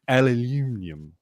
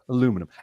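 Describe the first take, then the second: First: It is said with five syllables, British style. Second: It is said with four syllables, American style. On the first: The speaker calls it wrong. "how the British pronounce aluminum" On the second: The speaker calls it right. "which I know how to pronounce"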